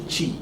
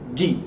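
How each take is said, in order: First: The consonant lets air hiss through. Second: The consonant is a full stop without airflow. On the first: The speaker calls it wrong. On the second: The speaker calls it right.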